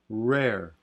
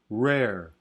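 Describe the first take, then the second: The two takes are said the same way.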